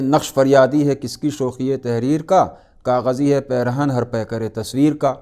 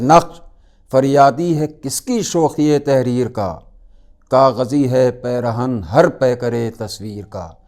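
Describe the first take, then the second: First: The couplet is recited flatly, without feeling. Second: The couplet is recited expressively, with strong feeling.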